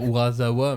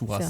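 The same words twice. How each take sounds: First: The middle consonant is a buzzing z sound. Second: The middle consonant is a hissing s sound. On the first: This is how a French speaker is tempted to say it. The speaker calls it wrong. "comme on a envie de dire Urasawa" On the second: This is the real Japanese pronunciation. The speaker calls it right. "ça se prononce Urasawa"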